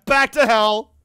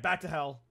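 First: Mock battle cry. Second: Said in the usual way. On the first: Streamer returns to grim beige-mom video, mock-epic shout. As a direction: bellow it grandly after a laugh.

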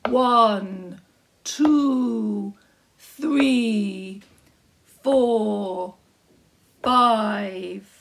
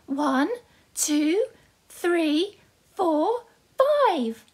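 First: Loud, slow giant counting. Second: Rising, higher and higher excited count; Jack counting. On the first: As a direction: count each coin like a big giant. Giant counts his coins. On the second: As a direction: count proudly, climbing to the top. Jack counts coins to mum. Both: Acted.

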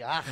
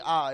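First: "Ah" ending in a throaty Hebrew rasp; hard guttural. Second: Said in the usual way. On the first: Shown as a demonstration. Preacher showing congregation the Hebrew sound, hard guttural. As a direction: say "Ah" with a hard "kh" scraped at the end. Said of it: "the hard guttural". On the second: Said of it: "that wouldn't be Ah".

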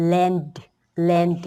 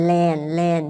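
First: "land" with a released d at the end; teacher models "land" with an audible final d; added final d. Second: "land" said as "lan", ending on n; teacher models "land" as "lan"; without final d. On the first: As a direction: say "land" and sound the closing d. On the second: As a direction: say "land" with no d at the end. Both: Shown as a demonstration. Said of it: "เพิ่มตัวดีมาก็".

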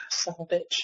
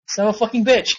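First: A sigh, then the curse muttered much softer; sighed under breath. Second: Said in the usual way. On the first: Real, not acted. Gamer muttering to himself after a bad loss, sighing and hushed. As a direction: let it out on a deflated breath, barely voiced.

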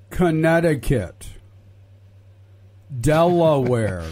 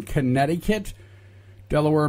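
First: Slow, loud, over-enunciated state names; mock-patient, loud and drawn out; spelled out slowly. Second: Said in the usual way. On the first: Shown as a demonstration. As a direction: spell it out for slow listeners, syllable by syllable. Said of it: "the Trump supporters that may be listening". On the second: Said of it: "Let me give that to you one more time".

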